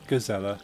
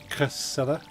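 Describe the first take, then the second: First: The word is said with English sounds. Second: The word is attempted with Dutch sounds. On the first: The speaker calls it wrong. "the English way of saying it would be just" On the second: The speaker calls it right. "but it's"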